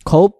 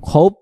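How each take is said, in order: No difference in how they are said.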